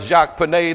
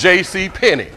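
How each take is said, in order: First: The name is said with a mock French accent. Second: The name is said with a plain English accent. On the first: The store is made to sound fancy and upscale. The speaker calls it wrong. "that's my French tailor" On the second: It is just an ordinary department store. The speaker calls it right. "It's not Jacques Pinet"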